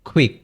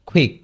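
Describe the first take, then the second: The two takes are said the same way.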